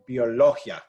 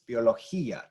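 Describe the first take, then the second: First: The final i and a blend into one syllable. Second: The final i and a are two syllables. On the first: The speaker calls it wrong. "as opposed to having biología. You know, that's not the word" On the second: The speaker calls it right. "We're going to separate those two sounds"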